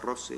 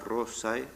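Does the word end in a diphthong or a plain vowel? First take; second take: plain vowel; diphthong. First: The word ends in a plain e vowel. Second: The word ends in the diphthong ae. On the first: This is how it was said in the Middle Ages. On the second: This is not how it was said in the Middle Ages. "en la Edad Media no se decía"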